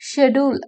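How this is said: The word begins with an 'sh' sound. "British இங்கிலீஷ்ல சொல்லுவாங்க"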